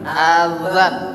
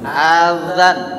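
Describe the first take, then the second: Both takes have the same delivery.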